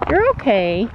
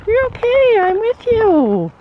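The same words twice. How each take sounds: First: Said in the usual way. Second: High, slow reassuring coo to a horse; calm the nervous horse, high and gentle; soothing pet talk. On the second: Real, not acted.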